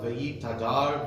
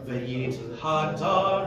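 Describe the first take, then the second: First: The h is dropped and the words run together. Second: A clear h sound separates the two words. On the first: The speaker calls it wrong. "you haven't made a distinction" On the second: The speaker calls it right. "just be very, very, very well aware"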